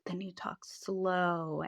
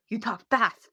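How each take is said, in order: First: Slow and soft, stretching the last word; hushed, stretched-out demonstration of slow speech; talking slow. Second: Quick, punchy demonstration of fast talk. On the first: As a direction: draw out "slow" to show slow talking. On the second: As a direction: say it briskly to mimic a fast talker. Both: Shown as a demonstration.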